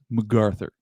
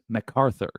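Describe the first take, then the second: First: The name is said without the clear k sound. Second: The name is said with a clear k sound. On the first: The speaker calls it right. "it's actually pronounced MacArthur" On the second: The speaker calls it wrong. "I used to mispronounce it as MacArthur with a C"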